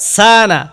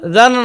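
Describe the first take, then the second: First: The word begins with a clear s sound. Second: The word begins with a z-like sound. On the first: The speaker calls it right. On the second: The speaker calls it wrong. "জানা না তো"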